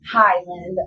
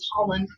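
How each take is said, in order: First: The word is said with a neutral vowel. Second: The word is said with a southern vowel.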